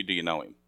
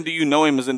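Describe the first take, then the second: First: Low, soft question, stress on "do"; searching question. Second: Said in the usual way. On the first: Shown as a demonstration. Pastor quietly presses the congregation, low and soft. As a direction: lean on "do" in "do you know him?", dropped low and soft. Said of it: "I'm asking you". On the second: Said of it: "I'm not asking".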